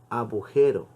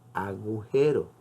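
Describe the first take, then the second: First: The middle consonant is a B sound. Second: The middle consonant is a G sound. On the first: The speaker calls it wrong. "Han escuchado ustedes decir, sobre todo a la gente del campo" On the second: The speaker calls it right.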